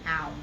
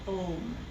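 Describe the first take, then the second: First: The vowel sounds like 'ow'. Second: The vowel sounds like 'oh'. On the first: The speaker calls it wrong. "not an ow vowel sound" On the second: The speaker calls it right. "pronounced with an O, as a vowel sound"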